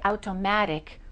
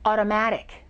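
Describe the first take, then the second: First: The first T is a crisp T sound. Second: The first T is a soft D sound. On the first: The speaker calls it wrong. "We don't say" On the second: The speaker calls it right. "we say ... it changes into a D"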